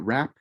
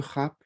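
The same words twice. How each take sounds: First: It is said with an English pronunciation. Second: It is said with a French pronunciation. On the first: The speaker calls it wrong. "it's not rap" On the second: The speaker calls it right. "Le rap"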